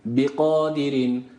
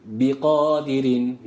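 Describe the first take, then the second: Both takes have the same delivery.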